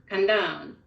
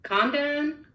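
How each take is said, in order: First: "condone" as con-DONE, falling on DONE; stress on second syllable. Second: "Condone" as CON-done, first syllable high; stress on first syllable. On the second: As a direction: punch CON in "Condone", pitched up. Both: Shown as a demonstration. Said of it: "read this two different ways".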